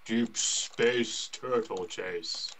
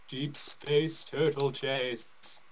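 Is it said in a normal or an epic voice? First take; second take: epic; normal. First: It is said in an epic, dramatic voice. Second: It is said in a normal voice.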